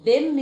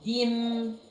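First: The d has no clear i vowel. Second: The d carries a clear i vowel. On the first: The speaker calls it wrong. "دم دي غلط" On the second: The speaker calls it right. "خلاص ديم"

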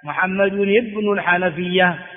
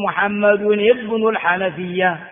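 First: The middle word is said as full 'ibn'. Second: The middle word is said as full 'ibn'.

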